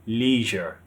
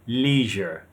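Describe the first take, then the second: Both takes have the same delivery.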